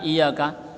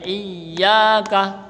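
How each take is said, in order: First: The y sound is short and not pressed. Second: The y sound is pressed and held doubled. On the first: The speaker calls it wrong. "kok enggak iyyaka" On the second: The speaker calls it right. "Ada tasydid maka ditekan dan panjang"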